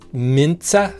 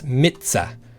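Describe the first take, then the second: First: An n sound is added before the ts. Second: No n sound comes before the ts. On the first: The speaker calls it wrong. "adding, I think, like an in here" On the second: The speaker calls it right. "there's no in there"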